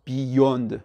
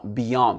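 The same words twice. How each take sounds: First: "beyond" as "bee-yonde", rounded French o; wrong French-style pronunciation. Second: "beyond" with short "bi" and open stressed "YAHND"; correct pronunciation. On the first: Teacher showing the error often heard, French-style mispronunciation. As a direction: say "beyond" slowly with French vowels, weight on "bee". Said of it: "et non pas beyond". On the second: Teacher correcting the French error, stressed open vowel. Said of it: "Non, beyond". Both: Shown as a demonstration.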